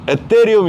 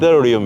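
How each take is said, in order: First: The second consonant is a hard t sound. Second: The second consonant is a soft th sound. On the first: Someone used to say it this way in the past. "이거는 옛날에 어떤 재미있는 분이 하신 거" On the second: This is how it is said in America. "그 티에이치 발음?"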